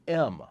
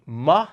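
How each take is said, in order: First: Said in the usual way. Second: M sounded out as "muh". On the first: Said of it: "or an M". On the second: Shown as a demonstration. Memory coach teaching the sound for three, M said "muh". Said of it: "the M sound".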